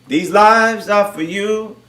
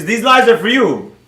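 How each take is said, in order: First: Very slow, word by word; slowed right down, deliberately spaced; slow emphatic repeat. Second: Said in the usual way. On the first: Real, not acted. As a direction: draw it out so it sinks in.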